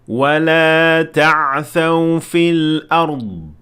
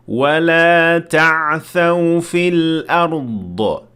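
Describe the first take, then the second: First: The final consonant stops cleanly without echo. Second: The final consonant ends with a bouncing echo. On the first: The speaker calls it right. "without adding any sort of qalqala" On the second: The speaker calls it wrong. "here is the mistake that you should avoid"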